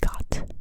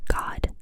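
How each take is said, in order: First: It ends with a T sound, German-style. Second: It ends with a voiced D sound.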